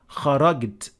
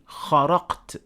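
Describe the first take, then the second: First: The middle consonant is a hard 'g' sound. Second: The middle consonant is a deep 'q' sound. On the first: "they turn jim into g" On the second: "they would think it is actually kharaqt"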